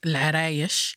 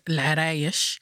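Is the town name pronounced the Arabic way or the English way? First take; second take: Arabic; Arabic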